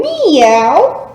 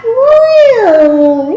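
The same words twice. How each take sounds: First: A lighter meow at normal pitch, rising at the end; a quick little meow after the big one; softer meow. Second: High, loud rising meow; a big show meow for the kids; cat meow. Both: Shown as a demonstration. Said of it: "And back to cat".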